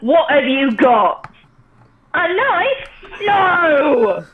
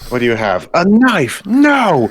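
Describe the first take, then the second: First: It is said in a Cockney accent. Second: It is said in the speaker's plain accent.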